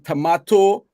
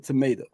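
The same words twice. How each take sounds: First: It is said in a Caribbean accent. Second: It is said in an American accent. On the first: This is the speaker's natural way of saying it. "Instead of saying tomato" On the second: This is adapted so Americans can understand. "I would say tomato"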